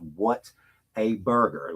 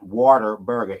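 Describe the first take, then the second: First: The name starts with the words what a. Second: The name starts with the word water. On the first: The speaker calls it right. "it is what a burger" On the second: The speaker calls it wrong. "it's not water burger"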